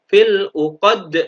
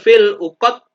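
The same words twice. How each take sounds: First: The final d bounces with a thick echo. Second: The final d stops without a bounce. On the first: The speaker calls it right. "yang benar seperti itu" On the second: The speaker calls it wrong. "Tidak boleh"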